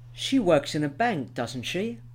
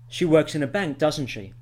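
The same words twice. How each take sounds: First: The pitch rises on the question tag. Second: The pitch falls on the question tag. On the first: The speaker is unsure and asks for confirmation. "hopefully, you heard a rising intonation there" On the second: The speaker is certain and expects agreement. "if the intonation falls"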